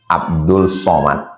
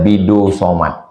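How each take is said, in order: First: The first name is said in full as Abdul. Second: The first name is shortened to two syllables, Bidu. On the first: This is the name's standard form. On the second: This is how an old Malay man says the name.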